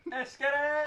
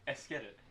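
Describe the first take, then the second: First: Higher, louder hype cry; hyped shout. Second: Said in the usual way. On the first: Real, not acted. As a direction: pump the table up.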